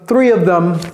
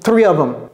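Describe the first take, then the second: First: The word them is pronounced fully. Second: The word them is reduced casually. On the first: It sounds careful and professional. "elle a prononcé le them" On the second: It sounds slangy and informal. "C'est comme ça qu'ils le prononcent"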